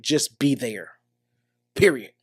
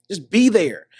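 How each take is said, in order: First: Soft low emphasis. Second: Said in the usual way. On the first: Real, not acted. To a listener whose friend was cheated on, low hushed emphasis. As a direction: lower and softer, dropped to a hushed close. Repeats key advice softly.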